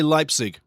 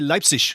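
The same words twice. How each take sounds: First: The word ends with a hard 'g' sound. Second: The word ends with a soft 'ich' sound. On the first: The speaker calls it wrong. "You don't say Leipzig" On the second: The speaker calls it right. "you got to say Leipzig"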